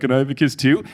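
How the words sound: It is said in a cute, playful tone. He is playfully asking for affection. "Kelly thought he was being cute"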